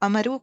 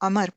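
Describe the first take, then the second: First: The name ends with an added 'oo' vowel. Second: The name ends without any added final vowel. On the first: The speaker calls it wrong. "इसको अमरू कभी नहीं पढ़िएगा" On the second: The speaker calls it right. "बल्कि अमर पढ़ते हैं"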